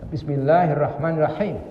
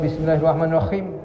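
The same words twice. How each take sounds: First: The h sounds are strong and from the throat. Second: The h sounds are light, like a plain h. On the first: The speaker calls it right. "ha dibaca ha" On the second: The speaker calls it wrong.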